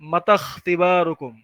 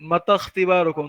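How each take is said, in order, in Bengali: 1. 'i' স্বরধ্বনিটি বাদ যায়, এবং 'kh' 'mata' এর সাথে যুক্ত হয়। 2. 'i' স্বরধ্বনিটি বাদ যায়, এবং 'kh' 'mata' এর সাথে যুক্ত হয়।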